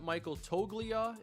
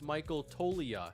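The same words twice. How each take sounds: First: The G in the surname is sounded. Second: The G in the surname is silent. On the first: The speaker calls it wrong. "It's neither" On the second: The speaker calls it right. "Silent G"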